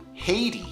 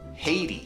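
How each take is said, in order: First: It is said with a North American pronunciation. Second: It is said with a North American pronunciation.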